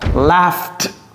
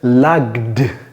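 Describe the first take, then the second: First: The middle consonant sounds like an f. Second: The middle consonant sounds like a hard g. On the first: The speaker calls it right. "ce G H, c'est F" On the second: The speaker calls it wrong. "Lagd, non"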